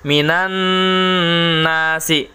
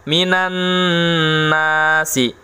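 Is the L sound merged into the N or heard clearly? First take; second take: merged; merged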